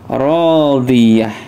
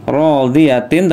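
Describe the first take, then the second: First: The word ends with a soft h sound. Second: The word ends with a t and -in ending. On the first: The speaker calls it right. "tapi radiyah" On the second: The speaker calls it wrong. "Tidak dibaca radiyatin"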